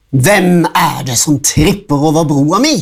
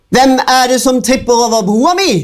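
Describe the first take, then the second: First: Said in the usual way. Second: A high, fast troll screech; the troll shrieks at the goat from under the bridge. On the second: A narrator's reading. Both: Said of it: "skrek fossiltrollet".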